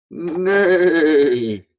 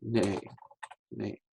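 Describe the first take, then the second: First: High, loud neigh; whinny like a horse. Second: Easy. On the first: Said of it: "horse makes the sound". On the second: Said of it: "We'll do it easy". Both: Shown as a demonstration.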